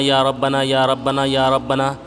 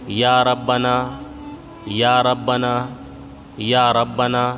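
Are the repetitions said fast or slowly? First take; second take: fast; slowly. First: The phrase is repeated quickly without pauses. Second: The phrase is repeated slowly with pauses. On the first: The speaker calls it wrong. "अगर आप इस तरह पढ़ेंगे" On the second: The speaker calls it right. "इसलिए आपको इस तरह से पढ़ना है"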